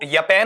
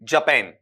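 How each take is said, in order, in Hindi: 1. शब्द की शुरुआत 'y' ध्वनि से होती है। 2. शब्द की शुरुआत 'j' ध्वनि से होती है। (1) "ये तो यपैन हो गया, यपैन गलत है" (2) "जापान इस तरीके से आएगा"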